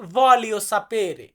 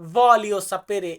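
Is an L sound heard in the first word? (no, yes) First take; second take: yes; yes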